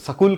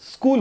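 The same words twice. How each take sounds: First: It is said with a Punjabi-style pronunciation. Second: It is said with the standard pronunciation. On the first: This is how Punjabi speakers say it. The speaker calls it wrong. "Punjabi लोग स्कूल कहते हैं" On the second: This is the proper form of the word. The speaker calls it right. "स्कूल होता है"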